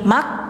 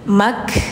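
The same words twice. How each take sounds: First: The K ends abruptly with no breath. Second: The K ends with a flow of breath. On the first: The speaker calls it wrong. "Jadi bacanya jangan gini mak" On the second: The speaker calls it right. "ada nafas mengalir"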